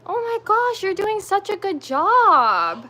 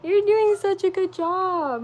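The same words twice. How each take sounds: First: High, loud, slow proud-mom praise; gushing praise. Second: High, slow, tender praise on the edge of tears; tender teary praise. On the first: Praising toddler finishing puzzle. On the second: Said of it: "Am I really gonna cry". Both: Real, not acted.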